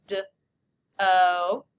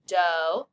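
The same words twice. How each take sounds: First: "D-O" as d, pause, long o; stretched out sound by sound. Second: Said in the usual way. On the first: Shown as a demonstration. Teacher stretching first syllable, sound by sound. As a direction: separate the two sounds of "D-O". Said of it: "Stretch it out". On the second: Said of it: "Let's spell the first syllable".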